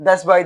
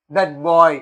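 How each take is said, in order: First: Put-on "thus boy" with s replacing the t; mispronounced "that boy". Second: Put-on "that boy" with a clear t closing "that"; correct "that boy". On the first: Teacher quoting how everyone says it, mispronounced "thus boy". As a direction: say "thus boy" as the common learner mistake. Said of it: "అని అంటా ఉంటారు". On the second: Teacher showing what should be said, correctly pronounced "that boy". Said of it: "అనేది అనాలి". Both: Shown as a demonstration.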